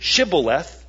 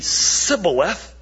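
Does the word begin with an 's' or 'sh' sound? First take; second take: sh; s. First: The word begins with a 'sh' sound. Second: The word begins with an 's' sound. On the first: The speaker calls it right. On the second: The speaker calls it wrong.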